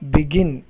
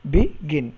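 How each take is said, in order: First: Said in the usual way. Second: "begin" split with a pause after be; syllable by syllable. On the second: Shown as a demonstration. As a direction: say "begin" as two parts, be, gin. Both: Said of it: "hyphen between begin".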